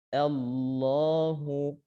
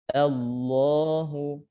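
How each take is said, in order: Both takes have the same delivery.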